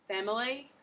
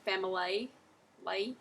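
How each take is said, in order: First: Said in the usual way. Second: Family ending in "lay"; Australian pronunciation. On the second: Shown as a demonstration. Teacher showing the Australian ending of family. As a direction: stretch the end of family into "lay". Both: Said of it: "You wouldn't say family".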